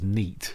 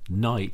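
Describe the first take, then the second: First: The word is said with a Sheffield vowel. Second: The word is said with a standard vowel.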